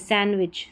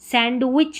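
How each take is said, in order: First: The d sound is left out entirely. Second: The d sound is pronounced in the middle. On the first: The speaker calls it right. "यहाँ पर डी silent" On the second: The speaker calls it wrong. "सैंडविच नहीं"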